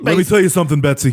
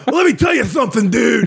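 First: Wrestling promo. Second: High shouted lisping wrestler promo; Hulk Hogan with a lisp. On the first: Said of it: "He just cuts a promo on her". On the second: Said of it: "What if Hulk Hogan had a lisp?". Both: Retold or imitated.

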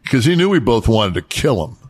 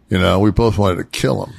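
First: Said in the usual way. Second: "both" leaned on harder than the rest; stress on both. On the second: Real, not acted. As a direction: press the word "both". Repeats the line for emphasis.

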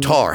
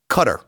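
First: Qatar with stress on the second syllable; Qatar as "kuh-TAR". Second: Qatar said like "cutter", stress on first syllable. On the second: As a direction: say Qatar as KUH-ter. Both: Shown as a demonstration. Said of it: "however you wanna say it".

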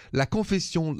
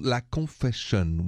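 First: "Confession" said the French way, ending in a nasal -syon; French pronunciation. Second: "Confession" said the English way, slowly, ending in -shun; English pronunciation. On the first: Podcast title French, then English. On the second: Podcast title repeated in English. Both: Shown as a demonstration.

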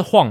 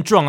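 First: Juan with an H-like start, like "Hwan"; correct reading of Juan. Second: Juan with a hard English J, like "Jwan"; wrong reading of Juan. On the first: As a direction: say Juan the Spanish way, J as H. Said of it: "他就是Juan嘛". (把Juan念成H开头的“晃”) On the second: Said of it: "没有人念Juan啊". (把Juan错念成J开头的“抓安”) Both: Shown as a demonstration.

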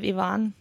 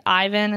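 First: Ivan as ee-VAHN, stressed on the second syllable; original Russian pronunciation. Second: Ivan as EYE-vun, stressed on the first syllable; Americanized pronunciation. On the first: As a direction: start Ivan with "ee", land on VAHN. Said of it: "instead of Ivan". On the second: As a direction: open Ivan with a long "eye". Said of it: "We say, like". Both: Shown as a demonstration.

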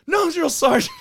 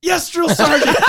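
First: Yes sir military replies. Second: High, loud recruit reply; yes sir military replies. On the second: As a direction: snap it out like a recruit. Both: Retold or imitated. Recruit answering sergeant.

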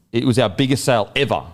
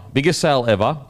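First: Said in the usual way. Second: "Biggest sale ever" repeated a little higher, with a rising tune on "sale"; emphatic repeat. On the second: Real, not acted. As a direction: lift "sale" on the repeat to drive it home. Hyping the store sale.

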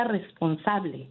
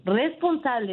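First: "responsable" drawn out slowly, each syllable weighted and falling; slow emphasis. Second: Said in the usual way. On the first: Real, not acted. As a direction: lean on "responsable", slow and deliberate. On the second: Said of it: "hacerla responsable".

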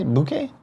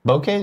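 First: Bouquet? said as boo-KAY with a clear B; standard bouquet. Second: Bouquet? said as poh-KAY with a P sound. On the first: Testing the other way to say it, Bouquet? as boo-KAY. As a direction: try Bouquet? the usual way, boo-KAY, higher and questioning. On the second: Asking the others how to say it, trying Bouquet? with a P. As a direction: sound out Bouquet? as pookay, testing it. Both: Shown as a demonstration. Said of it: "What do you say?".

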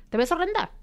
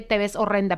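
First: "te ves horrenda" said much higher, as a final verdict; emphatic verdict. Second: Said in the usual way. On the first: Retold or imitated. Guest telling the interviewer one insult outweighs praise, much higher and emphatic. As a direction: land "horrenda" hard, like it's the last word.

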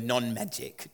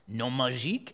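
First: Said in the usual way. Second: Imitated French pronunciation, "magique" ending in a soft zh-eek; French accent. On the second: Speaker mocking a film villain's pretentious word, French accent. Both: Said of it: "pronounces it with a French accent".

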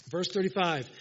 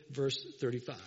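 First: Repeated with more force; louder restatement. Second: Said in the usual way. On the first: Real, not acted. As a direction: say it again to grab the church.

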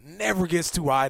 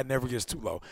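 First: Higher for high. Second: Lower for low. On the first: Friend describing a chill teammate, voice rising. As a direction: voice lifts on "never gets too high". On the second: Friend describing a chill teammate, voice dropping. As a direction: voice drops and softens on "never gets too low". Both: Shown as a demonstration.

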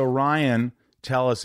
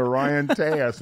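First: "Tellis" said with an L in the middle; mispronounced surname. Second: "Tejas" said as TAY-as, no L sound; corrected surname pronunciation. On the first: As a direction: say "Tellis" with a clear L, the mistaken way. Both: Real, not acted. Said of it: "it's pronounced Tejas".

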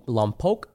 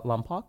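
First: Lompoc ending like "poke"; long-o ending. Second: Lompoc ending in an open "pock"; little accent. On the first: Unsure of the town's name, Lompoc ending in "poke". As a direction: say Lompoc with a long o in the second syllable. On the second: Trying the town's name another way, Lompoc ending in "pock". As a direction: say Lompoc with a short, open second vowel, softer. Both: Real, not acted. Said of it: "you said that with a little accent".

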